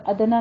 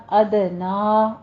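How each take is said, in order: First: ادنا run on with a stray vowel after the د; wrong ادنا. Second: ادنا slow, with the د bounced and final "aa" held; measured recitation of ادنا with a rebounding د; qalqalah on دال. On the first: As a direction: misread ادنا as "adana". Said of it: "نہیں کہنا". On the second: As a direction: echo the د in ادنا, then stretch the end. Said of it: "قلقلہ کرنا ہے دال پر". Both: Shown as a demonstration.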